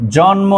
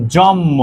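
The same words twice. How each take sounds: First: Said in the usual way. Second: জন্ম said as "jommo", the n turned into a doubled m; assimilated pronunciation. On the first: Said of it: "সমান করা, সমীভবন". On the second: Shown as a demonstration. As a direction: say জন্ম with a long mm and no n. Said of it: "দুইটা ধ্বনি বা বর্ণ". (জন্ম-কে "জম্ম" উচ্চারণ, ন ধ্বনি ম হয়ে যায়)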